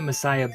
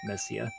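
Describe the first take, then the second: First: The name is said the familiar way. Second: The name is said the Japanese way. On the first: "I always pronounced it Messiah" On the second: "I think in Japanese it was Messia"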